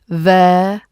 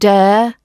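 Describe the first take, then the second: First: The word begins with a th sound. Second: The word begins with a d sound. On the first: The speaker calls it right. "It's there" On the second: The speaker calls it wrong. "Don't use a d"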